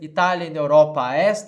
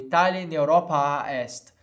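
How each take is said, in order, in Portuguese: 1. A vogal final de Europa é curta. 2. A vogal final de Europa é mantida por mais tempo. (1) "Ao invés de dizer" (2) "Eu tenho um tempo a mais aqui"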